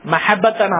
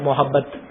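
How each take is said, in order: First: The first vowel is an a sound. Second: The first vowel is an o sound. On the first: This is the Arabic form of the word. The speaker calls it right. "മഹബത്താണ് അറബി. മഹബത്ത് എല്ലാം ഫത്ഹാണ്" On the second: This is the Urdu form of the word. The speaker calls it wrong. "അത് ഉറുദു വേർഡാണ്"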